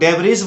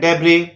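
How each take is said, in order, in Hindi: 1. शब्द 'z' ध्वनि पर खत्म होता है। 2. शब्द स्वर ध्वनि पर खत्म होता है। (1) "कुछ लोग डेब्रिज बोलते हैं जो कि गलत है" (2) "बोलना है डेब्री"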